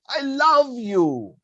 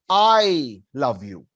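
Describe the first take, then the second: First: The stress is on "love". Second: The stress is on "I".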